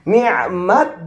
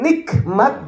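First: A throaty Arabic ain sound comes before the m. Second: A k sound comes before the m. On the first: Anything from God that brings one closer to God, good or bad. "pakai ain dia" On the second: Pleasure or enjoyment in the everyday Indonesian sense. "diadopsi ke dalam teks bahasa Indonesia pakai k"

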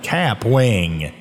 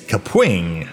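First: The name is said with an Appalachian twang. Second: The name is said without an Appalachian twang. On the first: The speaker calls it wrong. "I was calling it in my own little Appalachian twang" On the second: The speaker calls it right. "It's Kapwing, apparently"

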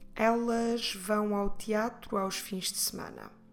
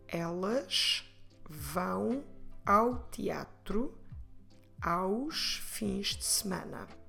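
First: The sentence is spoken at a faster pace. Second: The sentence is spoken at a slower pace. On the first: "Vamos repetir um pouco mais rápido" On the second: "Vamos repetir"

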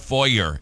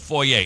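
First: The word is said in a plain, everyday way. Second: The word is said in a fancy, posh way. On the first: The place is cheap. "Or foyer, if it's a really cheap one" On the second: The place is really nice. "If it's really nice, it's a foyer"

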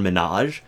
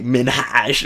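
First: The H sound in the middle is left out. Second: The H sound is pronounced very strongly. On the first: "because people say, well" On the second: "I don't want to hit the H too hard"

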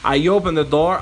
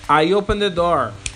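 First: The sentence is spoken at normal speed. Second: The sentence is spoken more slowly.

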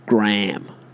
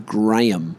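First: The name has one syllable. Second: The name has two syllables. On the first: The speaker calls it wrong. "the Americans call it Graham. I thought they just completely missed the middle of the word" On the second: The speaker calls it right. "we would say Graham"

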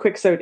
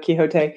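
First: The name is pronounced the English way. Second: The name is pronounced the non-English way. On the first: "they would have pronounced it Quixote in England" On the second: "instead of Quixote"

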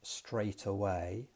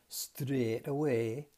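First: It is said with a non-Geordie accent. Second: It is said with a Geordie accent. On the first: "which is what I would say" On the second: "the way in which he said straight away"

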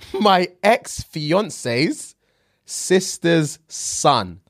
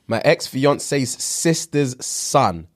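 First: The phrase is read slowly and deliberately. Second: The phrase is read at a normal pace.

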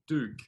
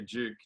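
First: The word begins with a plain d sound. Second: The word begins with a j-like sound. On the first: The speaker calls it wrong. "not Duke" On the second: The speaker calls it right. "We have to teach the Americans to say Duke"

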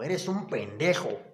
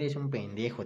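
First: It is said in an angry tone. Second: It is said in an affectionate tone.

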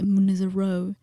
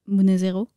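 First: The name is said with an English accent. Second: The name is said with a French accent. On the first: The speaker calls it wrong. "it would be weird for me to say Munezero" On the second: The speaker calls it right. "Say it properly"

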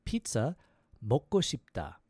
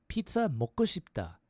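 First: It is said slowly. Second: It is said quickly.

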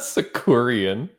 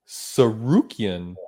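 First: The second syllable is 'ku', the third 'ri'. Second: The second syllable is 'ru', the third 'ki'. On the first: The speaker calls it wrong. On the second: The speaker calls it right.

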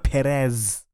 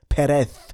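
First: The final sound is a buzzing 'z'. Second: The final sound is a soft 'th'. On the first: The speaker calls it wrong. "Not Perez" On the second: The speaker calls it right. "The Z is pronounced as th"

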